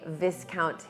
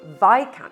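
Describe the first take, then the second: First: It is said to sound like discount. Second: It is said not to sound like discount. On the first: The speaker calls it wrong. "when it's spelled exactly like discount" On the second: The speaker calls it right. "It's pronounced Viscount Hinchingbrooke"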